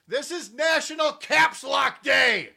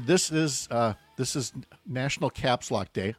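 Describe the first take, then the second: First: It is said loudly, as if shouting. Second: It is said at a normal speaking volume. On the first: The speaker calls it right. "let me say that properly" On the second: The speaker calls it wrong. "I'm sorry, let me say that properly"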